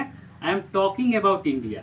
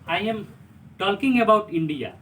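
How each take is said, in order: First: The L sound is silent. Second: The L sound is pronounced. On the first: The speaker calls it right. "कैसे बोलेंगे?" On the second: The speaker calls it wrong. "ऐसा नहीं बोलेंगे"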